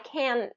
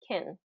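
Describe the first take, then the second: First: The vowel is pronounced fully and clearly. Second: The vowel is reduced and unstressed. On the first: The speaker calls it wrong. "because you're pronouncing that vowel in full" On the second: The speaker calls it right. "because really can is typically pronounced as kin, kin, because it's unstressed"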